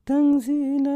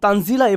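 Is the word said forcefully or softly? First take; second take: softly; forcefully. First: The word is said softly and plainly. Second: The word is said with strong force. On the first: The speaker calls it wrong. "আপনারা তো এভাবে পড়েন না" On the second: The speaker calls it right. "তখন তানজিলা এভাবে আসে"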